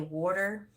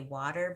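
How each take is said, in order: First: It is said in an East Coast American accent. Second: It is said in a Northern American accent. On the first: This is how the speaker used to talk. "I used to say water like an East Coast accent" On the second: This is how the speaker talks now. "I started mimicking the way the people spoke up north. So now I say water"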